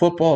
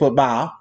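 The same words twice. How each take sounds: First: It is said in a plain, neutral accent. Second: It is said in a drawling Southern accent. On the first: "football is not called football" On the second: "it's called football"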